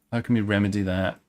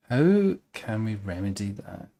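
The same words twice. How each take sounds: First: Said in the usual way. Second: Slow and pondering. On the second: Shown as a demonstration.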